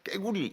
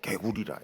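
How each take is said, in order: First: 깨구리 with a tense kk onset; 깨구리 snapped out with a hard doubled first sound; Gyeongsang 깨구리. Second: Said in the usual way. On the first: Shown as a demonstration. Preacher contrasting the dialect form: tense 깨구리. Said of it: "이래 안 하고". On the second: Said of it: "설교할 때 꼭".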